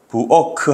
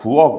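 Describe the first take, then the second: First: The final consonant is released with a vowel. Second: The final consonant is cut off, unreleased. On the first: The speaker calls it wrong. "부어크 하지 않고" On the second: The speaker calls it right. "부억 이런 게 이렇게 되죠"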